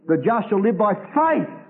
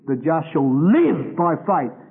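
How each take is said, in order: First: The stress falls on the word faith. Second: The stress falls on the word live. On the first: Faith is the point. "because faith is the all-embracing quality" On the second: Living rather than dying is the point. "because the questions here were life and death"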